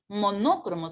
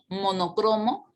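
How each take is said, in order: First: The stress is on the second syllable. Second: The stress is on the third syllable. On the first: The speaker calls it wrong. "no es" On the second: The speaker calls it right. "grave que termina en vocal"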